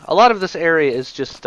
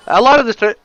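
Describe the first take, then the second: First: Said in the usual way. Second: Words interrupted by biting tongue; just bit tongue. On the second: Real, not acted. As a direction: cut off by a tongue bite. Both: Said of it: "ow, I bit my tongue".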